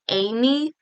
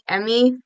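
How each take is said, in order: First: The first vowel sounds like 'ay'. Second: The first vowel sounds like 'eh'. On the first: This is how the name would be said in Japanese. "in Japanese it'd be pronounced more like Amy" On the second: This is how another person says the name. "June pronounces it like Emmy"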